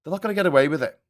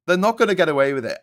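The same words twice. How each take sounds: First: Said in the usual way. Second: Faster, louder defiant repeat; rising defiant insistence; louder vow. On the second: Real, not acted. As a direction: hammer the promise home.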